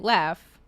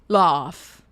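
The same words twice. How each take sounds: First: It is said in the speaker's American accent. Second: It is said in an Australian accent.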